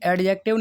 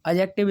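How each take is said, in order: First: The d sound is clearly pronounced. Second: The d sound is left silent. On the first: The speaker calls it wrong. "एडजेक्टिव नहीं" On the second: The speaker calls it right. "ए और जे के बीच में आपका डी silent रहता है"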